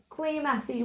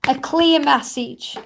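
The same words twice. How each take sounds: First: "Clear message" repeated much softer, almost under the breath; soft echo. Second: Said in the usual way. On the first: Shown as a demonstration. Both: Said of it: "That's more like it".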